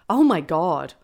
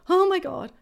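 First: It sounds elated and ecstatic. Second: It sounds fearful and scared.

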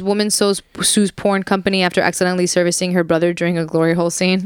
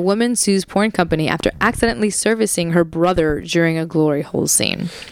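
First: The sentence is read very fast. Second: The sentence is read slowly. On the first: The speaker calls it wrong. "nobody could understand what the fuck you just said, micro machine guy" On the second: The speaker calls it right. "read that slowly"

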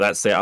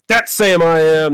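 First: It is read flatly, without energy. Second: It is read loudly, with great energy.

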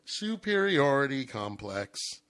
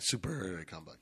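First: The phrase is said clearly and distinctly. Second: The phrase is mumbled quickly and unclearly.

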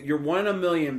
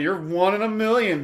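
First: It is said in a plain, sincere tone. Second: It is said in a mocking, sarcastic tone. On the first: The listener is truly praised. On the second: The speaker is making fun of someone.

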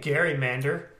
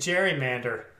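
First: It begins with a hard G sound. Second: It begins with a soft G sound. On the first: The speaker calls it wrong. "You're not saying gerrymander" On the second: The speaker calls it right. "You're saying gerrymander"

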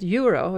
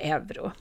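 First: It is said with an English pronunciation. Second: It is said with a Swedish pronunciation. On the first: The speaker calls it wrong. "det engelska namnet euro" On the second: The speaker calls it right. "Du säger euro. Ja, det gör jag också, och jag tror att det är faktiskt det vanligaste uttalet"

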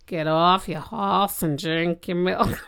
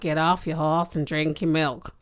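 First: The line is spoken more slowly. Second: The line is spoken at a normal pace.

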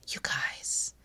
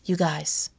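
First: The words are whispered softly. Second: The words are spoken in a normal voice. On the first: "whispering helps. I'm not going to keep whispering" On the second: "I'm not going to keep whispering because it's a podcast, but I pretend I'm whispering this in a lovely, lovely tone"

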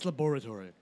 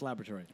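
First: The word is said the British way. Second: The word is said the American way. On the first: "England, it's laboratory" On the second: "We're in America, so it's laboratory"

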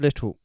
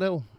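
First: The full two-syllable word 'little' is said. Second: A short one-syllable form 'Lil' is said. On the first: The speaker calls it right. "The word Little" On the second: The speaker calls it wrong. "Not a [name] or a [name]"

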